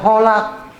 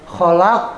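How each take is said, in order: First: The first sound is a soft h. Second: The first sound is a rasping throat kh. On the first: The speaker calls it wrong. "Jadi nggak boleh holak" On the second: The speaker calls it right. "kho cara pengucapannya itu sama di tenggorokan. Seperti kita buang dahak"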